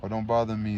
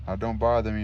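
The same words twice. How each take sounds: First: Exasperated. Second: Louder, menacing warning; cornered youth warns the tattered man off, louder; desperate menace. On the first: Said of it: "gave a cry of exasperation". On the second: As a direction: snap it as a desperate threat. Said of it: "he repeated with desperate menace". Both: A narrator's reading.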